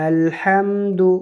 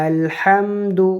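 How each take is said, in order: The two takes are said the same way.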